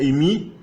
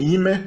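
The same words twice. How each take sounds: First: "imi" said with a clear long i sound at both ends; ancient Greek form. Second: "ime" said as ee-meh, ending on an open e; modern Greek form. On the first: Teacher gives the ancient Greek verb form, pronounced clearly. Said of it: "O grego antigo tinha imi". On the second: Teacher contrasts it with the modern Greek form, pronounced clearly. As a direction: end "ime" on an e, not an i. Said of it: "o grego moderno tem ime". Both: Shown as a demonstration.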